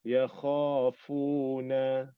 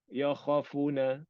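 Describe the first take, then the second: First: The vowels after kha and fa are long. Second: The vowels after kha and fa are short. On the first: The speaker calls it right. "Ada yakhafuna. Sebutan macam tu" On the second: The speaker calls it wrong. "Kalau dia tak ada mat tu"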